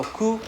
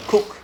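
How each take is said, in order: First: Ku ending on the vowel; open syllable. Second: Cook as kuk, cut off on K; borrowed K. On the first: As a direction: say ku with no closing K. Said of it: "instead of pronouncing as ku". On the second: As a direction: close cook abruptly with a K stop. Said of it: "the first K sound". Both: Shown as a demonstration.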